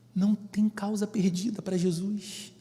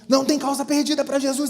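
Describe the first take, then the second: First: It is said calmly at a normal volume. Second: It is shouted loudly with strong emotion. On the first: It invites quiet reflection on the truth. The speaker calls it right. "basta você pensar nisso e colocar isso em seu coração" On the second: It tries to convince through shouting and emotion. The speaker calls it wrong. "a gente não precisa gritar isso"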